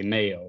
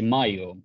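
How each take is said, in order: First: The name is pronounced the English way. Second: The name is pronounced the Swedish way. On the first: This is how it is said to international people. "when I talk to you and other uh, people internationally, I say mayo" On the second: This is how friends back home say it. "when they pronounce it in Swedish, they say mayo"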